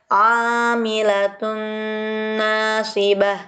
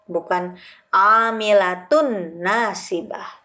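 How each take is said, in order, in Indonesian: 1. Dengung panjang menghubungkan kedua kata. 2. Tidak ada dengung panjang yang menghubungkan kedua kata. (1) "harus disertai dengan dengung" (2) "Bukan amilatun nasibah. Salah"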